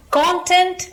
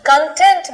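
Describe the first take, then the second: First: content with the stress on CON, the noun; high, punched start on "content", CON-tent; first-syllable stress. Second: content with the stress on TENT, the adjective; con-TENT, leaning on the end of "content"; second-syllable stress. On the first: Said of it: "first syllable पे stress आएगा". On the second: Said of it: "second syllable पे stress आया". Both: Shown as a demonstration.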